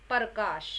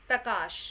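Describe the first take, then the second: Both takes have the same delivery.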